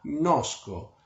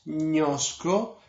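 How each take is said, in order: First: The gn is said as ng followed by n. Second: The gn is said as one palatal ñ sound. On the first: The speaker calls it right. "Es como en inglés la un final" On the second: The speaker calls it wrong. "no es ñosco"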